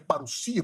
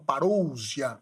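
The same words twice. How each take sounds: First: The s is voiceless like an s. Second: The s is voiced like a z. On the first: The speaker calls it right. "mas é parousia... o sigma não tem som de Z no grego, é som de S" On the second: The speaker calls it wrong. "alguns falam parousia"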